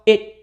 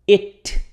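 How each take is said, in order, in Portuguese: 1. O T final é retido, não liberado. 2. O T final é totalmente liberado. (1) "o T já tranca na língua aqui" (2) "eu nem falo it"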